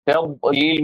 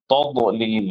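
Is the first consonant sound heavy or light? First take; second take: light; heavy. First: The first consonant is light and thin. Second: The first consonant is heavy and full. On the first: The speaker calls it right. "ता लाइट ही रहे, हेवी ना बने" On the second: The speaker calls it wrong. "तौबलीग अगर आप रहे तो गलत होगा"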